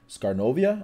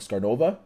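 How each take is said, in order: First: The name ends with a 'novia' sound. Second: The name ends with a 'nova' sound.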